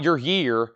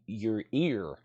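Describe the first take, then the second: First: "your year", with a y-sound at the start of year; wrong take "your year", the y put on. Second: "your ear", with no y-sound, just "eer"; softer right take "your ear", no y. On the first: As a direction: say "year" like the calendar year, leading with y. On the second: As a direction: correct it to "ear", starting straight on the vowel. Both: Shown as a demonstration. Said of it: "Not your year".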